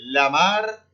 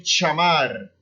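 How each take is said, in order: First: "lamar" with a palatal lh onset. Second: "chamar" with a sh or tch onset. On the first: Teacher showing one regional LL, LH sound in "lamar". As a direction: say "lamar" as lyamar. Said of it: "em algumas regiões você vai ouvir". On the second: Teacher showing another region's LL, CH sound in "chamar". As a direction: start "chamar" on ch instead of lh. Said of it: "outras você vai ouvir". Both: Shown as a demonstration.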